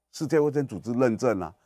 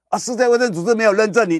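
First: Said in the usual way. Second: Much higher, louder, stern refusal; mock Japanese official. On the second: Japan loudly telling the vaccine maker no certification. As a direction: play Japan rebuffing the lobbyists loudly. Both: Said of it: "李秉颖说".

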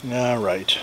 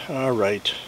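The two takes are said the same way.

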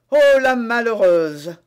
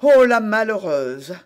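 First: Loud, slow outcry; exclamation indignée. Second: Loud drawn-out lament; exclamation consternée. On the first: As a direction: cry out, stretching the words. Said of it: "s'écria le commissaire". (s'écrier lentement et fort) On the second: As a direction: cry out in dismay, loud on the Oh. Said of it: "s'écria Bonacieux". (s'exclamer avec consternation) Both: A narrator's reading.

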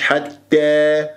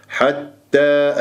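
First: حتى drawn out with the a leaning to e; tilted-vowel mistake. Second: حتى drawn out with a clear open a; corrected open vowel. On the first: Teacher shows what not to say, vowel tilted. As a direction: tilt the ending of حتى toward e. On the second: Teacher corrects the mistake, open long a. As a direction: end حتى on a level, open a. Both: Shown as a demonstration. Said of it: "مش حتى".

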